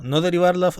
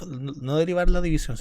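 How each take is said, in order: First: "no derivar la" pushed out much louder; emphatic warning. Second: "no derivar la división" louder, stress falling on "la"; emphatic correction. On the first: Teacher warns students not to differentiate the quotient, loud emphatic stress. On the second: Teacher repeats the warning to the class, firm emphatic stress. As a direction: restate "no derivar la división" firmly, a bit less loud. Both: Real, not acted.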